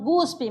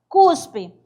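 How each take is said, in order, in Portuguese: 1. A palavra começa com som de G. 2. A palavra começa com som de K. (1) "a pessoa vai fazer a pronúncia guspe" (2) "mas o certo é falar cuspe"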